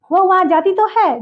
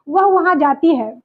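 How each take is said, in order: First: Weight on तो in वह वहाँ जाती तो है; emphatic. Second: Said in the usual way. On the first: Shown as a demonstration. Teacher contrasting the emphatic version, stressing तो. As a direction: insist on तो. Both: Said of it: "जोर देके बोले".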